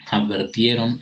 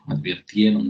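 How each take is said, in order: First: Advirtieron said as adver-tieron, with e; the incorrect advertieron, e in the second syllable; mispronounced Advirtieron with e; wrong form advertieron. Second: Advirtieron with a clear i, ad-vir-tie-ron; correct advirtieron. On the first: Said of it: "está mal dicho". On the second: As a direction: say advirtieron properly, vir not ver. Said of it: "debe decirse". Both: Shown as a demonstration.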